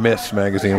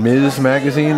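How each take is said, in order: First: The first word ends with a hissing s sound. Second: The first word ends with a buzzing z sound. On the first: The speaker calls it wrong. "I said that wrong once" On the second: The speaker calls it right. "Did I say Miz right?"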